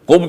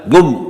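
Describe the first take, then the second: First: It begins with a k sound. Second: It begins with a g sound.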